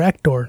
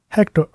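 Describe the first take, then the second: First: The name is pronounced the Spanish way. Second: The name is pronounced the English way.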